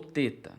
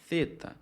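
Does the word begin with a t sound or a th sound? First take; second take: t sound; th sound. First: It begins with a hard, plain t sound. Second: It begins with a soft, breathy th sound. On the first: "vocês podem pronunciar como o T" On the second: "ele é um som aspirado"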